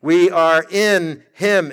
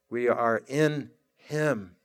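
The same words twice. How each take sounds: First: Slow, full voice, leaning on in; a confident preacher's affirmation, unhurried; firm slow declaration. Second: Soft, slow and hushed, almost to yourself; a low murmured affirmation, unhurried. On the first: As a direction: proclaim it steadily, stressing in. Same phrase repeated with force. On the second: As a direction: let it sink in quietly, drawn out. Soft reflective repeat of phrase. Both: Acted.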